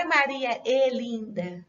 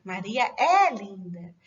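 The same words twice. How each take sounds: First: "é" said as closed, unstressed "e" like the conjunction; teacher shows the mistaken closed "é"; wrong closed e. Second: "é" said open and stressed, "eh"; slow, careful "é" as the verb ser; teacher's corrected "é", open and clear. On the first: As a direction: demo the wrong reading, "é" as a plain "e". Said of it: "Não é". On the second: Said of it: "Não é Maria é linda". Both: Shown as a demonstration.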